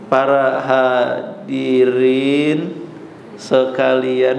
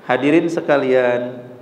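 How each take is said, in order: First: It is said very slowly and drawn out. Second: It is said at a calm, clear pace.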